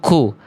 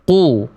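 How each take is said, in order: First: The k sound comes with a puff of breath. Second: The k sound comes with no puff of breath. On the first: The speaker calls it wrong. "tadi saya baca keluar percikan nafasnya bocor" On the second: The speaker calls it right. "Harusnya kita baca ku. Nggak keluar percikan nafasnya"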